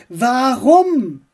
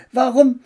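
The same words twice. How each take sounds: First: "Warum" pressed louder and higher; "Warum" as an insistent, drawn-out demand; emphatic question. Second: Said in the usual way. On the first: A narrator's reading. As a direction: insist on "Warum" with raised pitch and force. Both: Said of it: "fragte Max nun mit Nachdruck".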